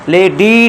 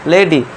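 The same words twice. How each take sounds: First: The final vowel is drawn out long. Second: The final vowel is kept short. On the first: The speaker calls it wrong. "नहीं" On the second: The speaker calls it right. "छोटी ई है ना, short sound"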